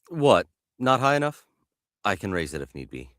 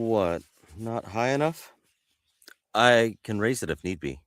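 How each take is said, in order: First: It is said at a brisker, attentive pace. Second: It is said slower, half paying attention.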